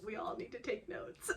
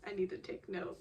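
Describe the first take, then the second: First: A real laugh through "We all need to take notes". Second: Said in the usual way. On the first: Real, not acted. Fan telling viewers to learn, laughing through "We all need to take notes".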